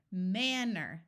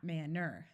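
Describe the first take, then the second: First: MANNER stressed on MAN; first-syllable stress. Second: MANNER with weight on final NER; wrong-syllable stress. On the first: Teacher modelling accented first syllable, stress on MAN in manner. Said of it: "first syllable that is accented". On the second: Teacher showing what to avoid, second syllable of manner stressed. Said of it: "not manner". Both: Shown as a demonstration.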